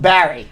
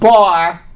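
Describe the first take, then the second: First: The name is said with two syllables. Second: The name is said as one short syllable. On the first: This is how the family says the name. "Everyone in his family calls him Barry" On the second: This is how the speaker himself says the name. "I call him Bar"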